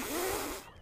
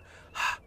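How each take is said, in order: First: Sputtering puff of air through puffed cheeks; puffed-cheek blow. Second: Steady breathy exhale from the diaphragm; a smooth controlled breath out. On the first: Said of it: "You don't blow on a mirror and go". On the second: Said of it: "like this, you go". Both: Shown as a demonstration.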